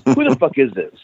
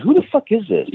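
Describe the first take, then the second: First: Said in the usual way. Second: Much higher, fed-up demand; mock angry, pitch shooting up; retold frustrated outburst on the phone; exasperated. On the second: Caller still won't identify himself.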